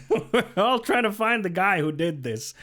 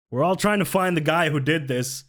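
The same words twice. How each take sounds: First: Laughing. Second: Said in the usual way. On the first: Shown as a demonstration. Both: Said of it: "it's basically this".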